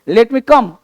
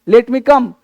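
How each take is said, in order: The two takes are said the same way.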